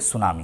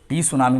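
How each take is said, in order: First: The word starts directly with an s sound. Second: A t sound is heard before the word. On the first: The speaker calls it right. "टी silent है" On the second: The speaker calls it wrong. "टी सुनामी नहीं बोलेंगे"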